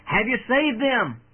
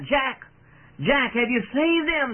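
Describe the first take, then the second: First: Raised, higher-pitched call from the crowd; anxious cry. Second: High, urgent call from the crowd; impatient cry. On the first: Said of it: "one voice from the anxious crowd cried out". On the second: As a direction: cry out impatiently, pitch jumping up. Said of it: "with impatience they cried out". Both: A narrator's reading.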